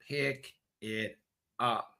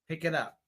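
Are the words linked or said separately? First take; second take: separate; linked. First: The words are said separately. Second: The words are linked smoothly together. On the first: The speaker calls it wrong. "instead of" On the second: The speaker calls it right. "if the connecting sounds are smooth"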